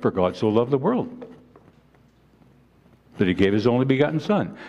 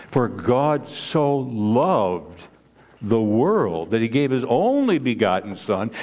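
First: Fast, rushed recitation of a memorized verse; rattled off quickly. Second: Very slow, weighing each word of the verse; slow and deliberate. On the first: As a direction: say it quickly without thinking. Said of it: "We state it so quickly". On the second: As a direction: let every word land slowly. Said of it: "we really don't think of what is really being said". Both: Shown as a demonstration.

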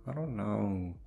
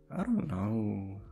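The two takes are said the same way.

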